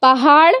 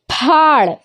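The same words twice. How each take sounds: First: पहाड़ said pa-haad with an open h; pa-haad, h separate. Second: पहाड़ said as phaad, one syllable with a breathy ph; aspirated ph. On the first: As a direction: give पहाड़ two syllables, pa then haad. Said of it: "एक देखिए". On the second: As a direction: merge पहाड़ into phaad with a puff of air. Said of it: "different हो रहा". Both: Shown as a demonstration.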